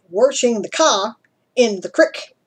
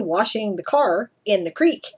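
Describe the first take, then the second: First: It is said in an imitated Texan accent. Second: It is said in the speaker's own plain accent. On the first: "As they would say it" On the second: "as I would say"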